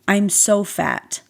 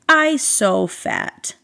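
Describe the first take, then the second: First: It is said in her normal adult voice. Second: It is said in a little toddler voice.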